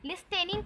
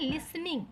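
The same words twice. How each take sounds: First: First लिसनिंग read letter by letter as "lis-ten-ing"; T sounded in first लिसनिंग. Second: लिसनिंग said "lis-ning", no t; silent T in लिसनिंग. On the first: Teacher reading the spelling to students, लिसनिंग with audible T. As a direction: say लिसनिंग with a hard t before -ening. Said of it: "को हम actually पढ़ते हैं लिसनिंग". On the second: Teacher showing how it is really read, लिसनिंग with silent T. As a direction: drop the t, two syllables in लिसनिंग. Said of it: "यहाँ पास जो टी है ना". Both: Shown as a demonstration.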